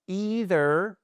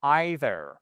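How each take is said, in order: First: EITHER as EE-ther, high drawn-out ee, rising; long ee. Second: EITHER as EYE-ther, falling; eye pronunciation. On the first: Teacher offers learners the first option, long ee vowel. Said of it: "soit un I long". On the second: Teacher offers learners the second option, eye vowel. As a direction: start EITHER on an eye diphthong. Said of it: "soit un". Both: Shown as a demonstration.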